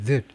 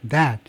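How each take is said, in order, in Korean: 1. 이 단어는 아주 짧고 약하게 발음됩니다. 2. 이 단어는 완전하고 또렷하게 발음됩니다. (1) "관계대명사는요" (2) "지시대명사나 지시형용사 할 때 that이에요"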